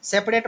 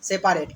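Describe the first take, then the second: First: "सेपरेट" run together as "सेप्रेट"; quick two-beat "सेप्रेट"; usual short pronunciation. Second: "सेपरेट" in three beats, "से-पा-रेट"; spelling pronunciation "सेपारेट"; said as written. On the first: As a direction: drop the middle vowel, "सेप-रेट". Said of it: "सेपरेट मत याद रखिए". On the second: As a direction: sound a full "पा" in the middle, "सेपारेट". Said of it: "लेकिन पढ़िएगा क्या?". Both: Shown as a demonstration.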